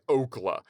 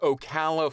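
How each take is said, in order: First: The name is squeezed into two syllables. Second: The name is said with three syllables. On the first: The speaker calls it wrong. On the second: The speaker calls it right.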